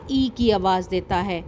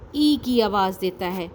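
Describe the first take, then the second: No difference in how they are said.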